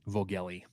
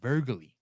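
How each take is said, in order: First: The first vowel is a plain American 'oh' sound. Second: The first vowel has a rounded German umlaut sound. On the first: "just straight up Americanized" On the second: "Germanic pronunciation, ... you'd get the umlaut pronunciation"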